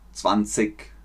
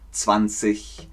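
First: It is said with a southern German, Bavarian accent. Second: It is said as in the rest of Germany.

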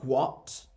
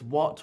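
First: An h sound is breathed before the w. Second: The word starts with a plain w sound. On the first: The speaker calls it wrong. "We don't say what" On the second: The speaker calls it right. "No, it's what"

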